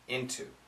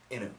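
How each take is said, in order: First: The T sound is clearly pronounced. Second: The T sound is dropped, sounding like inu. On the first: "We keep the T" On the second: "Some people say inu"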